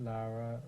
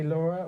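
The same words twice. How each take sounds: First: "Lara" with an open AH, LAH-ra; pronunciation of Lara. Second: "Laura" with an AW vowel, LAW-ra; pronunciation of Laura. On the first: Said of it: "or is it". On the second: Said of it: "do you say Laura or is it". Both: Shown as a demonstration.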